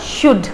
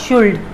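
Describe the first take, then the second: First: The word is said without an L sound. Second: The word is said with an L sound. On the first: The speaker calls it right. "एल को silent रखेंगे तो बन जाएगा शुड" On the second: The speaker calls it wrong. "Not शुल्ड"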